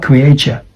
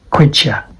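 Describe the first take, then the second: First: CREATURE said as "cree-AY-cher"; three syllables in CREATURE, like "create" plus "-ure"; mispronounced creature. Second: CREATURE said as "KREE-cher"; two syllables in CREATURE; correct creature. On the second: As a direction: say CREATURE short, as "cree-cher". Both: Shown as a demonstration. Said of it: "this is not creature".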